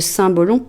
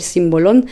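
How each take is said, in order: First: It is said with a French accent. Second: It is said with a Spanish accent. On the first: "mais en fait c'est le symbolon" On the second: "je l'appelle avec un accent espagnol"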